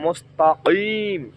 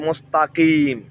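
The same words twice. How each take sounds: First: The k is a deep throat q. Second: The k is a plain front k. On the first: The speaker calls it right. "কফ, কলকলার হরফ" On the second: The speaker calls it wrong. "আমি উচ্চারণ করেছি কাফ"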